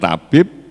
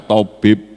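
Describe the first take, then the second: First: It is said with plain Indonesian sounds. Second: It is said with Arabic sounds. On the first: "Bahasa Indonesia tabib" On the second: "bahasa Arabnya tabib"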